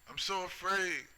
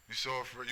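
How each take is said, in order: First: Much higher, sarcastic mock-frightened whine; mocking fear. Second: Said in the usual way. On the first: Taunting tough-talking people, high mocking whimper. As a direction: parrot their fear to belittle it.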